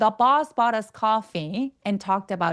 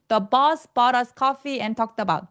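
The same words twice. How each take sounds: First: There is a light pause before "and". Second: It runs on with no pause before "and". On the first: The speaker calls it right. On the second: The speaker calls it wrong.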